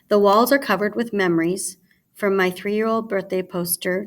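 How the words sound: There is a pause after "memories". The speaker calls it right. "you'll notice that I paused after memories"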